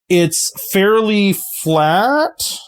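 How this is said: The voice rises at the end, like a question.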